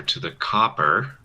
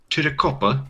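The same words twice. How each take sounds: First: Said in the usual way. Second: Mock British pronunciation of copper; British accent. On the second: Gamer teasing how the British say copper, mock British accent. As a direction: put on a lazy British accent. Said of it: "Why do the British talk like that".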